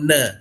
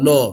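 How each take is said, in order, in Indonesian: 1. Vokalnya terdengar seperti 'a' yang terbuka. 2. Vokalnya terdengar seperti 'o' yang membulat. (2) "kalau nallah jadi no, no, bukan no"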